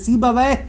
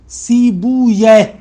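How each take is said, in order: First: The name ends with a 'wayh' sound. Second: The name ends with a 'yeh' sound. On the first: The speaker calls it wrong. "ये तलफ़ुज़ गलत है, सीबा वह नहीं है" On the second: The speaker calls it right. "ऐसे ऐसे पढ़े, दुरुस्त ऐसे है"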